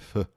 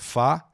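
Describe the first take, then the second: First: The vowel is a reduced schwa. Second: The vowel is a full open a. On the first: The speaker calls it right. "o schwa de novo, no fá" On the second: The speaker calls it wrong. "Não é fá"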